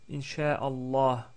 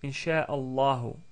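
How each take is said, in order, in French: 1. Le mot finit sur le h, sans voyelle. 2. Le mot finit par une voyelle u finale.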